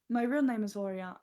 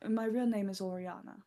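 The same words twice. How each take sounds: First: It is said at normal volume. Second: It is said more quietly.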